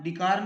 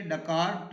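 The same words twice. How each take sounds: First: डिकार said with i in the first syllable, as the mistake; the common wrong form डिकार, with a short i; wrong pronunciation. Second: डकार with a short a in the first syllable, dakaar; teacher models डकार as dakaar; correct pronunciation. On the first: (डिकार का ग़लत तलफ़्फ़ुज़, ज़ेर के साथ) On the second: (डकार पहले हर्फ़ पर ज़बर के साथ) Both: Shown as a demonstration. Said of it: "डिकार नहीं पढ़ेंगे".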